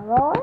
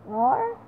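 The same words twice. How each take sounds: First: Loud roaring dinosaur. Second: Roar. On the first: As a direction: roar it out like a dinosaur. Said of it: "A roar of a dinosaur". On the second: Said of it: "Sort of like". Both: Pretend.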